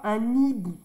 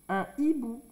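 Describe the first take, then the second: First: The n is linked to the next word. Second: The n is not linked to the next word. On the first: The speaker calls it wrong. "on ne fait pas un hibou" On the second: The speaker calls it right. "Même si on n'entend pas le H"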